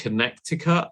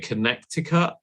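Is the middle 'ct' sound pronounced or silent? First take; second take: pronounced; pronounced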